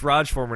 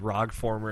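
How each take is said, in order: First: The first part sounds like 'Raj'. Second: The first part sounds like 'Rog'. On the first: The speaker calls it right. "you know it's Raj Former now" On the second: The speaker calls it wrong. "I keep saying Rog Former, and he gets pissed at me"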